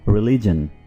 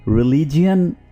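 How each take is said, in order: First: The word ends with a plain 'jun' sound. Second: The word ends with an extra 'ee' vowel: 'jee-un'. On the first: The speaker calls it right. "आप इसको क्या pronounce करेंगे? रिलीजन" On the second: The speaker calls it wrong. "इसको आमतौर पर रिलीजियन pronounce किया जाता है, जो कि बिल्कुल गलत है"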